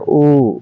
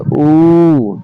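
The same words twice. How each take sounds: First: The vowel is said quickly and short. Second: The vowel is drawn out for a while. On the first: "जल्दी से उच्चारण करते हैं" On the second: "थोड़ा लंबा दो तीन सेकंड लगाते हैं"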